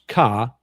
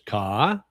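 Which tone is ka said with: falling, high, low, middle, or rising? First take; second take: low; rising. First: The word is said on a low pitch. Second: The word is said with a rising pitch. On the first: "which is low tone" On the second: "which is rising tone"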